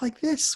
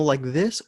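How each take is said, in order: First: The voice is a put-on, cheery voice. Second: The voice is the speaker's normal voice.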